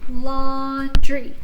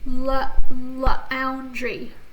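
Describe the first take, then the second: First: The vowels a and u stay together. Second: The vowels a and u are split apart. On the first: The speaker calls it right. "so we're gonna keep our vowel team together" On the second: The speaker calls it wrong. "I would not go la, laundry. See, that doesn't make sense"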